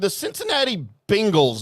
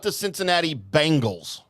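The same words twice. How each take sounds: First: The name sounds like the tiger word 'Bengal'. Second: The name sounds like the band name 'Bangles'. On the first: It names the football team after the tiger. The speaker calls it right. "They're the Cincinnati Bengals" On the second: It names the eighties girl pop band. The speaker calls it wrong. "the all-girl eighties pop band"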